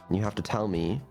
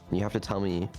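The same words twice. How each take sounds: No difference in how they are said.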